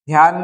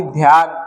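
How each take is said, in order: First: ध्यान begun with plain "d": "dyaan"; unaspirated first sound. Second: Said in the usual way. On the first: Shown as a demonstration. Teacher showing a wrong sound, plain "d" in ध्यान. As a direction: drop the breath from the "dh" in ध्यान. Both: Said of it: "नहीं".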